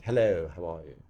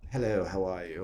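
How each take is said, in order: First: Clipped RP English accent. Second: RP English accent, again lower; Received Pronunciation greeting. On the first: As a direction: say it in crisp Received Pronunciation. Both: Shown as a demonstration. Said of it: "It's all in the R P accent".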